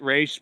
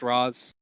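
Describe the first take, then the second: First: The name is said with a long 'ay' vowel. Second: The name is said with a short 'ah' vowel. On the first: This is how the speaker personally says it. "I pronounce it Raish" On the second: This is thought to be the official pronunciation. "I think it's actually pronounced Roz"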